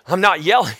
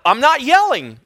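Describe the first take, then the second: First: Said in the usual way. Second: High-pitched, raised-voice protest; mock yelled denial. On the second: Preacher answers a complaint about his volume, mock yelled denial. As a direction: deny it while comically near yelling. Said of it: "Stop yelling".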